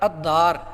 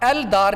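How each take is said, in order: First: The L blends into a doubled D sound. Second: The L sound is clearly pronounced before D. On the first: The speaker calls it right. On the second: The speaker calls it wrong.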